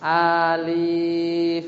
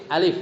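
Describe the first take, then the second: First: "Alif" with both vowels dragged very slowly; stretched-out "Alif"; wrong long reading. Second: "alif" said short and quick; unstretched "alif"; correct short reading. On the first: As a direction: chant "Alif" on a level note, overlong. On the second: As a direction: say "alif" without holding either vowel. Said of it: "Tapi alif". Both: Shown as a demonstration.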